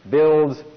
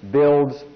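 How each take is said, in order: Both takes have the same delivery.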